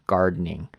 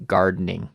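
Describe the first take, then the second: The two takes are said the same way.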